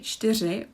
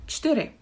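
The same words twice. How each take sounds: First: The word is said fully with every sound. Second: The word is said in a shortened, reduced form. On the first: This is the official form. "we don't always say" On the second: This is casual, everyday speech. "It's not the official way, but we can say something like"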